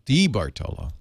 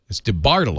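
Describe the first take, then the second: First: The stress is on the first syllable. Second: The stress is on the second syllable. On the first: "on the first syllable" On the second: "you put the emphasis on the second syllable"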